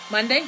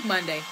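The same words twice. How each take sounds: First: Monday? with a rising, unsure question tune; asking rise. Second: Monday. with a low falling tune, sure now; settled fall. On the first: Unsure vlogger asking herself the day, rising. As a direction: check the word Monday? as a question. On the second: Vlogger confirming the day to viewers, falling. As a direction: answer her own question: Monday. falling flat. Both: Real, not acted. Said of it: "Sun-, what is it?".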